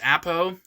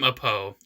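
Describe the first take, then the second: First: The first vowel sounds like 'ah'. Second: The first vowel sounds like 'uh'. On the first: "give the A bit of bit, a bit of an ah instead of an uh" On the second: "I've always called him Apo ever since I was a kid"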